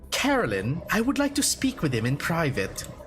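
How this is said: It is read in a put-on British accent.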